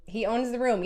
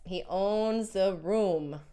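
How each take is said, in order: First: Said in the usual way. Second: "he owns the room" drawn out slowly; emphatic agreement. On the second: Real, not acted. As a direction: stretch each word of "he owns the room". Repeats comment slowly in agreement.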